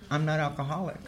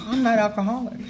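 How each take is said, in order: First: Said in the usual way. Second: "I'm not alcoholic" said higher, with the stress on "I'm"; emphatic repeat. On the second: Retold or imitated. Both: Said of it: "That's what I told him".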